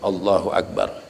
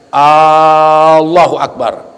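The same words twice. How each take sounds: First: The opening vowel of Allah is kept short. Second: The opening vowel of Allah is drawn out. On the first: The speaker calls it right. "Jadi yang benar Allahu Akbar" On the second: The speaker calls it wrong. "hamzah ya di lafadz Allah dipanjangin"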